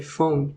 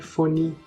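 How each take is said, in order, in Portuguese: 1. A palavra termina na consoante final. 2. A palavra termina com um som de vogal adicionado. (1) "é iPhone" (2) "não é iPhone"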